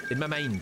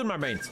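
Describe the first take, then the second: First: Said in the usual way. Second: "mind" said like "main" in a Scottish way; Scottish accent. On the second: Real, not acted. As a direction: slip into a Scottish vowel on "mind". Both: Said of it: "That was Scottish for a second".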